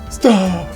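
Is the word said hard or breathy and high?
breathy. The vowel is said high and breathy.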